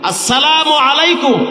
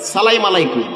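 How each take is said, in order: First: The greeting is fully and carefully pronounced. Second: The greeting is clipped and sloppily pronounced. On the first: The speaker calls it right. "এখন আমি শুদ্ধ করে আপনাদেরকে একটু সালাম দিচ্ছি" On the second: The speaker calls it wrong. "সালামটাও শিখায় না"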